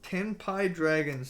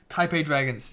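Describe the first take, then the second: First: Tenpai said slowly and carefully as TEN-pie; slow, careful correction of Tenpai; corrected name Tenpai. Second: Says Taipei Dragons, Taipei as TIE-pay; the mistaken Taipei, said plainly; wrong name Taipei. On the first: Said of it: "Sorry, Taipei". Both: Shown as a demonstration.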